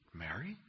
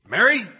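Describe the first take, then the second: First: The name is said quietly, not called out. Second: The name is called out to get attention. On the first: "Is it maybe something like this?" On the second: "To get her attention?"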